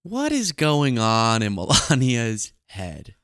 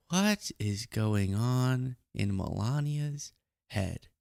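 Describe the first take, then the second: First: Slow, full-voiced musing; drawn-out wondering. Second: Very slow, soft musing; hushed wondering. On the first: Host wondering over a muted clip of Melania, slow and drawn out. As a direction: stretch out the question in full voice. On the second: Acted. Host repeating the question over a muted clip, hushed and drawn out. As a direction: draw the question out softly, word by word.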